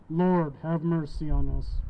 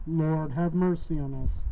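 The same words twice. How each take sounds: The two takes are said the same way.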